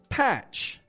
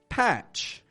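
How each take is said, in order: First: The TR sounds like CH with an unrolled R. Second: The TR sounds like CH with an unrolled R.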